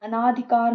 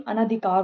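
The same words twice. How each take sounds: First: अनाधिकार with long aa after n; long second vowel. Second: Said in the usual way. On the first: Shown as a demonstration. Teacher showing a common error, long second vowel. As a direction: stretch the ना in अनाधिकार. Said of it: "नहीं". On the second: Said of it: "होता है".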